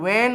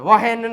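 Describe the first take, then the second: First: The word is said with no h sound. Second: The word is said with an audible h sound. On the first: The speaker calls it right. "આને વેન વાંચવામાં આવે" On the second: The speaker calls it wrong. "વહેન નહીં"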